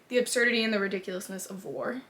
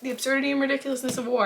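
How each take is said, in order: First: It is said at a normal, quieter volume. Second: It is said louder, with more force.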